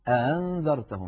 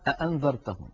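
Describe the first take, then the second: First: The second glottal stop is softened, not fully closed. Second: Both glottal stops are fully pronounced, back to back. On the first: "يسهل الهمزة الثانية" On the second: "تبقي هذا الأمر على حاله ... ينطقون الهمزتين هكذا"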